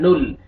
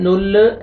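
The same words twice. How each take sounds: First: "नुल" ending on a still l; still laam. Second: "नुल" with a released, bouncing l; bouncing laam. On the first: Teacher correcting, "नुल" with unshaken l. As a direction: close "नुल" on the l without bounce. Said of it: "लाम को आपने हिलाना नहीं है". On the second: Teacher showing the mistake, "नुल" with shaken l. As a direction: add a little vowel after the l in "नुल". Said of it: "नुल ऐसे नहीं पढ़ना है". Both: Shown as a demonstration.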